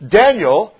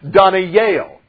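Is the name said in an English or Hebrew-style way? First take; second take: English; Hebrew. First: The name has its usual English pronunciation. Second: The name has a Hebrew-style pronunciation. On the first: "how we normally pronounce it" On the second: "literally in the Hebrew, is supposed to be Daniel"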